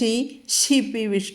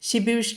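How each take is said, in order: First: The first 'shi' sound is doubled with force. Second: The first 'shi' sound is said softly. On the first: The speaker calls it right. "ഷി കടുപ്പിക്കുമ്പോൾ ബലം കേൾക്കണത്" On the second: The speaker calls it wrong. "പതുക്കെ പറഞ്ഞാൽ പോരാ"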